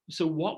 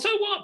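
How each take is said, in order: First: It sounds gentle and curious. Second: It sounds dismissive and rude. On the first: The listener is invited to describe the consequences. The speaker calls it right. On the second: The other person's problem does not matter. The speaker calls it wrong.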